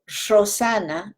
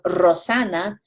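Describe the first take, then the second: First: It has an Ecuadorian Andes unrolled R. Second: It has a rolled, trilled R.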